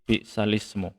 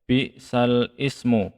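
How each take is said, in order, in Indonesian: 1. 'Ismu' menyambung dengan lancar ke suku kata sebelumnya. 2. 'Ismu' terpisah, dimulai dengan hamzahnya sendiri. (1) "tapi bi bi salismu" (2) "jangan sampai bi sal ismu begitu"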